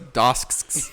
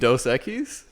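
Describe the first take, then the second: First: The name is squeezed into one clipped syllable. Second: The name is said in full as two words. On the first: The speaker calls it wrong. "mispronouncing beers" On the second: The speaker calls it right. "You mean"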